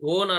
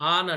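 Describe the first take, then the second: First: The vowel sounds like 'oh'. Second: The vowel sounds like 'ah'. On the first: The speaker calls it wrong. "ఓన్ అనం" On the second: The speaker calls it right. "ఆన్ అంటాం. ఓని ఆగా పలుకుతున్నాం"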